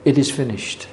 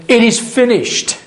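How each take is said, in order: First: Softly, dropping the voice, a quiet mild cry; hushed last words. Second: Anguished cry. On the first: Preacher quoting the Saviour's last words on the cross, hushed. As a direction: let it fall away as dying words. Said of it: "That was the cry from the Saviour". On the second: Preacher voicing Jesus's final cry from the cross, high and strained. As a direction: voice leaps much higher on It is finished, strained. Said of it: "final moment, saying". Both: Retold or imitated.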